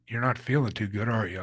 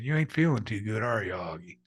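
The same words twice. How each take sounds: First: Said in the usual way. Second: Put-on Southern North Carolina accent. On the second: Gym acquaintance checking on an injured man, in a North Carolina accent. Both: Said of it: "strong Southern North Carolina accent".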